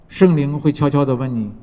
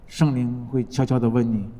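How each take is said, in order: First: Said in the usual way. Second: Softer and lower retelling of 悄悄地问你; quieter. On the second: Shown as a demonstration. Preacher softening as the Spirit speaks, quiet. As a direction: drop to a soft, lower voice on 圣灵会悄悄地问你.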